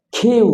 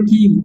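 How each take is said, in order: First: "কিউ" with a puffed, aspirated k; correct letter Q. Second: "কিউ" with an unaspirated k; common letter Q. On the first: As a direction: puff air on the k of "কিউ". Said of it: "actually উচ্চারণ হবে". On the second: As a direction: say "কিউ" with no puff on the k. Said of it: "এটা বলে কিউ". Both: Shown as a demonstration.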